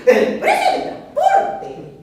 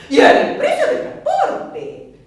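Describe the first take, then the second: First: High, loud, slow shuddering moan; "El precio del transporte" wailed high and slow in horror. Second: High, loud and slow, with a laugh; a wailing cry over the price; dramatic dread. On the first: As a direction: shiver as you say the price. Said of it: "con escalofrío". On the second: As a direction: moan out the cost like a disaster. Dreading the cost of transport. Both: Acted.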